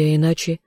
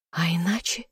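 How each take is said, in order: First: Said in the usual way. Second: Soft teasing whisper, rising at the end. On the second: A narrator's reading. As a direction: breathe it against his lips. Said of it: "прошептала ему в губы".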